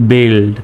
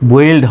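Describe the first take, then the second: First: The u is silent, giving 'bild'. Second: The u is sounded, giving 'bwild'. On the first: The speaker calls it right. "কিন্তু সঠিক উচ্চারণ আসতেছে বিল্ড" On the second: The speaker calls it wrong. "স্বাভাবিকভাবে বানান করলে B ইউ I L D, বুইল্ড হয়"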